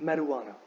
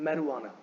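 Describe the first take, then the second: No difference in how they are said.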